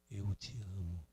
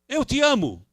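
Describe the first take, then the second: First: It is said softly and gently. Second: It is said loudly and forcefully.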